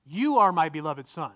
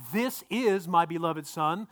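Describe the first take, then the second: First: "You" leaned on at the start; emphatic "You", then falling away; stress on "You are". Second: "This is" slow and separated; slow quoted reading, weight on "This is"; stress on "This is". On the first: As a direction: read it out, pointing up "You are". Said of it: "now what are the next two words". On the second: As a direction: set "This is" apart for contrast. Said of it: "there's a subtle difference". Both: Shown as a demonstration.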